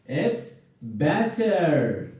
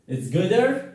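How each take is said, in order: First: Slow, "better" stressed and falling; correct form. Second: "gooder" said as a questioning wrong form. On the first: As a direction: give "better" slowly as the right answer. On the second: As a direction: offer "gooder" as the mistake. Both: Shown as a demonstration.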